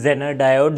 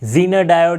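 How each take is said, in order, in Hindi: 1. पहला स्वर छोटी 'e' की आवाज़ है। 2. पहला स्वर लंबी 'ee' की आवाज़ है। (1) "जो भी आप इसे प्रोनाउंस करें" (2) "जो भी आप इसे प्रोनाउंस करें"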